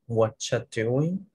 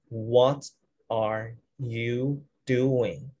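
First: The words are squished together into one quick sound. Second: Each word is said fully and separately. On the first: The speaker calls it right. "we would squish that all together to make it sound like whatcha" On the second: The speaker calls it wrong. "And we don't actually say"

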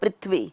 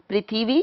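First: The th runs straight into the v sound. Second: A short i is heard after the th sound. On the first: "वकार के साथ दीर्घ ई केवल" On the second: "थ के साथ ह्रस्व ई और व के साथ दीर्घ ई"

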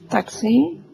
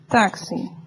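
First: The stress is on the last syllable. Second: The stress is on the first syllable. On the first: It means a taxi. "taksówka z akcentem na końcu" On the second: It means class or order. "A tutaj będzie taksi"

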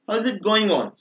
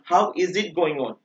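First: The words 'how is' are contracted together. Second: The words 'how is' are said in full. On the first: The speaker calls it right. "remember when you pronounce this, it is how's it going on" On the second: The speaker calls it wrong. "not how is it going on"

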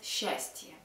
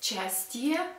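First: The word is said with its normal spoken pronunciation. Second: The word is sounded out the way it is spelled. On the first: "and we pronounce счастье" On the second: "We spell счастье"

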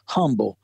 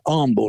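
First: The name starts with a clear H sound. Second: The name starts with a vowel, no H sound. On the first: This is how a reader would guess from the spelling. The speaker calls it wrong. "when you read it, you're going to say Humble" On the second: This is how the family says the name. The speaker calls it right. "it's actually pronounced with the H being silent"

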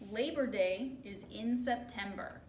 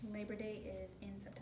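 First: The sentence is said at loud volume. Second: The sentence is said at normal volume. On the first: "Could you maybe say that louder?" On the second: "Can you say that again?"

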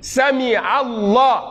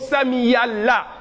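First: A throaty ayn sound follows 'Sami'. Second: A y glide sound follows 'Sami'. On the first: The speaker calls it right. "ça finit par un aïn" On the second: The speaker calls it wrong. "et non"

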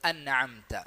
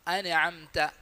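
First: The n is held smoothly without a bounce. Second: The n is released with an echoing bounce. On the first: The speaker calls it right. "കൽക്കല നൂനില്ല" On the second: The speaker calls it wrong. "നൂനിന് കൽക്കല ചെയ്യും ചില ആളുകൾ"

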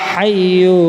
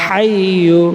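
Both takes have the same delivery.

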